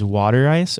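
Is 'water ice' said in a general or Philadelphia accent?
general. It is said in a general American accent.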